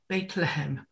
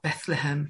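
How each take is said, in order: First: The first part sounds like 'Beit'. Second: The first part sounds like 'Beth'. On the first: This is the Hebrew form of the name. "if you're in Jerusalem, they'll talk about" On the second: This is the English form of the name. "We've anglicized it a bit to sound more like Beth than Beit"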